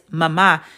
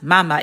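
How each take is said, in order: First: The stress is on the second syllable. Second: The stress is on the first syllable. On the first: The speaker calls it right. "put more emphasis on the second letter or whatever letter it's over" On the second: The speaker calls it wrong. "it's not pronounced mama"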